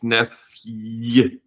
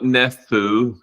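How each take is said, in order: First: It is said with a y sound before the vowel. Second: It is said without a y sound before the vowel. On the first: The speaker calls it right. "there is this y sound" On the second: The speaker calls it wrong. "It's not nephew"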